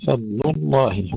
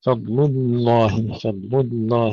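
First: فضل الله moving from thin ل in فضل to heavy ل in الله; thin lam, then one full dark lam; light-to-heavy lam. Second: الله with its lam begun thin, then thickened midway; wrong split lam. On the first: Teacher showing the correct transition, light to heavy lam. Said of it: "من اللام المرققة في فضل إلى اللام المفخمة". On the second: Teacher imitating students' mistake, lam thin then heavy. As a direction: drag the doubled ل of الله from light into heavy. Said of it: "يبدأون باللام مرققة ثم يفخمونها". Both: Shown as a demonstration.

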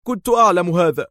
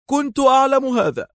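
First: High exclaim on أعلم. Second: Much higher cry on أعلم; Dar's second cry, pitched very high; exclaiming louder. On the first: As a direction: Dar cries out, excited. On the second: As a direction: Dar repeats it, climbing higher. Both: A narrator's reading. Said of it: "هتف دار".

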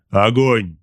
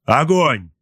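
First: Loud order at everyday pitch; loud, level-pitched battle command; second firing command. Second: Higher, louder order to fire; raised-voice battle command; firing command. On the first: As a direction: give the order firmly without raising pitch. Captain repeats the firing order. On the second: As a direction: call out the launch order sharply. Captain orders torpedo launch. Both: A narrator's reading.

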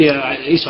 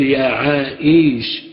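First: "يا عائش" said quickly, cut off at once on the ش; right away. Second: "يا عائش" said slowly, the final ش stretched as if waiting for the dropped letter; waiting form, slow. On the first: Teacher contrasting for students the quick "يا عائش" that does not wait. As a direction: clip "يا عائش" short and fast. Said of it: "على طول". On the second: Teacher demonstrating slowly to students the form "يا عائش" of one who waits. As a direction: draw out "يا عائش" patiently, lingering on the end. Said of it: "بضم الشين على لغة من ينتظر". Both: Shown as a demonstration.

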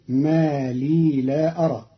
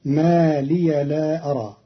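First: لي as long "lii", not "liya"; silent vowel on ya. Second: Said in the usual way. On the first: Shown as a demonstration. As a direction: hold لي as one syllable before لا. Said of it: "بإسكان الياء". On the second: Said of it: "كلمة ما لي".

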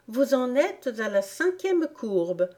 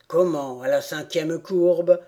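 First: Put-on higher girlish voice stressing "cinquième"; innocently explaining, pitched up; Alice pitched high, eager; earnest little girl. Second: Indignant rat. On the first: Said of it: "protesta Alice". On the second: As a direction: throw her words back at her. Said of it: "absolument fâché cette fois". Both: A narrator's reading.

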